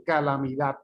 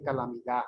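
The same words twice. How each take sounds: First: "calamidad" con la d final dura, casi t; d final marcada. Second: "calamidad" sin d final, "calamidá"; d final caída. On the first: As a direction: remata "calamidad" con una d bien pronunciada. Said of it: "Usted no dice". ("calamidad" cerrado en consonante firme) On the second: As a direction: termina "calamidad" en la vocal: calamidá. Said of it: "usted dice". ("calamidad" con la última consonante muda) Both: Shown as a demonstration.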